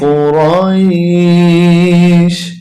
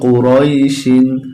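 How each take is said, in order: First: The word ends on a bare 'sh' sound. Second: The word ends with an added 'in' sound. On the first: The reader stops at this word. "যখন আমরা এখানে থেমে যাব তখন উচ্চারণটা হবে কুরাইশ" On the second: The reading continues past this word. "শিন দুই জের শিন"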